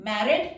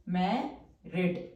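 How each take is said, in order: First: Said in the usual way. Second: married stretched very slowly, lower and softer, falling at the end; slow, spelled-out word. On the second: Shown as a demonstration. Teacher slowly sounding out married for shorthand students, soft and drawn out. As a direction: draw out every sound of married. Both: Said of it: "अब full stroke से represent करेंगे".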